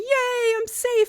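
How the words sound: It is said with excited jubilation.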